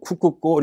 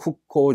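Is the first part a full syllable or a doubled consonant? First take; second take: full syllable; doubled consonant. First: The first part ends in a full ku syllable. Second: The first part closes into a doubled k sound. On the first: The speaker calls it wrong. "발음이 부드럽지가 않아요" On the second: The speaker calls it right. "초음으로 읽어가지고 후코 이렇게 읽는다"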